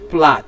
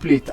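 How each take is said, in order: First: The vowel is short, as in 'cat'. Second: The vowel is long, as in 'late'. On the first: The speaker calls it right. "the given word here is plat" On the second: The speaker calls it wrong. "not plate, as people will call it"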